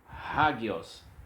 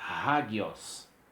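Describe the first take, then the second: First: The word begins with an h sound. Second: The same.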